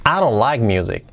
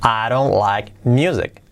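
First: Quick, linked phrase; brisk natural-speed model; said faster. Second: Slow, spaced-out words; careful dictation take; slow model. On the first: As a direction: run it together fluently. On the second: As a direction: say each word separately for learners. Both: Shown as a demonstration. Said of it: "Dicho más rápido".

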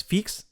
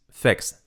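First: "fix" with a tight ee, "feeks"; wrong pronunciation. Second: "fix" with short i near e; correct pronunciation. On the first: Teacher showing the error, mispronounced "fix". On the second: Teacher correcting learners, correct "fix". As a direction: say "fix" close to "feks". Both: Shown as a demonstration. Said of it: "No es fix".

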